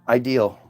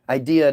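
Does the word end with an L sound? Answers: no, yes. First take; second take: yes; no. First: The word ends with an added L sound. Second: The word ends on a vowel sound. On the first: "why do you say ideal?" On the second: "Idea doesn't sound right"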